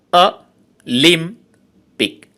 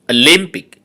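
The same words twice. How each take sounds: First: Olympic slowly split into three syllables with pauses. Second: Said in the usual way. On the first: Shown as a demonstration. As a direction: say Olympic in three slow, separate beats. (Olympic তিন সিলেবলে থেমে থেমে) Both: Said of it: "trisyllabic words".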